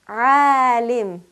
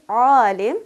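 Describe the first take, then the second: First: The vowel is light and thin. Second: The vowel is heavy and full. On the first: The speaker calls it right. "we give the light quality and the sharp pronunciation" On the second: The speaker calls it wrong. "we also make it very heavy"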